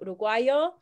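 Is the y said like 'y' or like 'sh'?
y. The y is said like a y.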